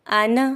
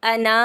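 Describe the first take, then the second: First: "आना" with a long first vowel; correct vowel length. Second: "अना" with a short first vowel and long last; wrong vowel length. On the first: Teacher showing learners the proper reading, "आना" with long first vowel. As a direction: hold the opening aa of "आना", keep the end brief. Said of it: "पढ़ना है". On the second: Teacher showing learners the misreading to avoid, "अना" with short first vowel. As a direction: say "अना" cutting the first a short, stretching the end. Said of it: "नहीं पढ़ना". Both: Shown as a demonstration.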